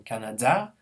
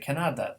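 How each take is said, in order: First: The stress is on the last syllable. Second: The stress is on the middle syllable. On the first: "pronounced the last syllable as stress" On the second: "a Pole would say Canada"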